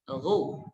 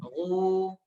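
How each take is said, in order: First: The vowel is short, held for one beat. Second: The vowel is long, held for two beats. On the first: "Kita keluarkan dulu satu harokat saja" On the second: "maka ghu di sini dipanjangkan dua harokat"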